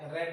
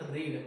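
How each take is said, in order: First: The vowel is short, like in 'bed'. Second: The vowel is long, like in 'seed'. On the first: The reading happened in the past. "Pronunciation ಮಾಡಿದ್ದೆ ರೆಡ್ ಅಂತಂದ ಓದಿದ್ದೆ ಅಂತ" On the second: It is the base present form of the verb. "ಇಲ್ಲಿ ನಾನು pronunciation ಮಾಡ್ತಾ ಇದ್ದೀನಿ ರೀಡ್"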